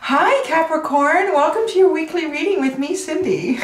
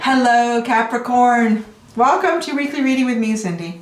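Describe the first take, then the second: First: It sounds nice, warm and sincere. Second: It sounds flat and not sincere.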